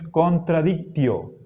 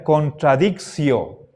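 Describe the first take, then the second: First: The ti syllable is said the classical Latin way. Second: The ti syllable is said the Spanish way. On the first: "según los antiguos romanos, el latín clásico, esta es la pronunciación" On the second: "asimilando el latín al español, entonces esto se pronunciaría contradictio"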